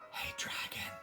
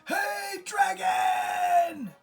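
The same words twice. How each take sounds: First: It is whispered very softly. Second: It is shouted very loudly.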